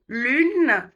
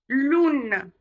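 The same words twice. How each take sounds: First: "Lune" with a front rounded U. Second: "lune" pronounced like "loune"; OU in place of U. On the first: Teacher drills U against OU, "Lune" with fronted U. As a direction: say "Lune" with tongue forward, lips rounded. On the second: Teacher shows the confusion, "lune" said as "loune". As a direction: say "lune" with a back rounded OU vowel. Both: Shown as a demonstration. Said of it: "le U et le OU".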